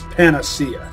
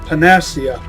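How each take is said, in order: First: The stress is not on the second syllable. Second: The stress is on the second syllable. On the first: The speaker calls it right. "It's panacea" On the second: The speaker calls it wrong. "put the accent of certain words on the second syllable"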